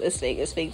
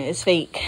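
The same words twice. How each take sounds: First: It's fake, it's fake murmured low and soft to herself; quiet self-reassurance. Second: Said in the usual way. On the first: Telling herself while reading the book, quiet self-talk. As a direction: repeat It's fake quietly, calming yourself down. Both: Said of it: "keep telling myself".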